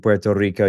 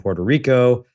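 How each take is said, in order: First: It is said with a Puerto Rican accent. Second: It is said with an American accent.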